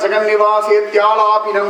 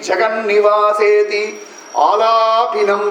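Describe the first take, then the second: First: The words are run together into one flow. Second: The words are said separately, each kept apart. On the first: It is how the verse is said in fast recitation. "கடகடகடன்னு சொல்லும்போது" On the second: It is easier for listeners to understand. "நான் பிரிச்சு பிரிச்சு சொல்றேன்"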